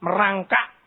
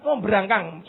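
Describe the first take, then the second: First: "merangkak" in standard Indonesian, final k dropped. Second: "berangkang" said with the local -ang ending; local word berangkang. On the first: Preacher gives the standard word "merangkak" after the slang one. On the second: Preacher shows the local word "berangkang" to the congregation. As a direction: say "berangkang" as the local slang form. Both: Shown as a demonstration. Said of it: "Saya tahu bahasa berangkang".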